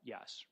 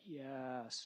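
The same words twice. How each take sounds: First: The word is said short and plain. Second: The word is stretched out long. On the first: "not yes" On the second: "You're you're drawing out the yes"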